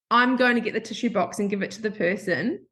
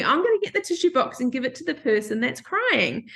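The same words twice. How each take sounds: First: Said in the usual way. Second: Slightly lifted, lightly voiced little girl; a hint of an inner child. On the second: Woman quotes the little girl in her, lightly childlike. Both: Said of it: "It's like the little girl in me".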